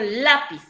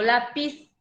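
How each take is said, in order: First: The stress is on the first syllable. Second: The stress is on the last syllable. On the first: The speaker calls it right. "Yo digo lápiz, se carga la voz en la penúltima sílaba" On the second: The speaker calls it wrong. "no digo lápiz"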